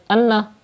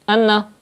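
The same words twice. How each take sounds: No difference in how they are said.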